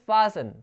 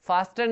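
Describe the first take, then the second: First: The t sound is left out entirely. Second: The t sound is pronounced in the middle. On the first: The speaker calls it right. "इसको बोलते हैं फासन, टी silent" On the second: The speaker calls it wrong. "फास्टन नहीं बोलते"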